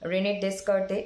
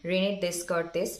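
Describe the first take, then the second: First: The name ends without a final s sound. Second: The name ends with a final s sound. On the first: "যদিও pronunciation Rene দেস রেনে ডেসকার্তে এরকম" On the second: "তবু আমি এটা বলার মানে বোঝানোর জন্য বললাম"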